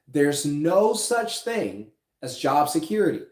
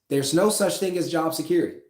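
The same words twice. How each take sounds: First: The sentence is said slowly. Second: The sentence is said quickly. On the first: "I'll say it again" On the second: "Did I say that too fast?"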